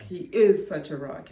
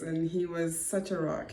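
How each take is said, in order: First: "is" hit louder; stress on IS. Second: Said in the usual way. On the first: Real, not acted. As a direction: punch the word "is" to correct the tense. Corrects was to is.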